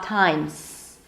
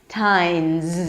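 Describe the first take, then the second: First: The word ends with a hissing S sound. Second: The word ends with a buzzing Z sound. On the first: The speaker calls it wrong. "So it's not" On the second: The speaker calls it right. "The S is actually pronounced as a Z"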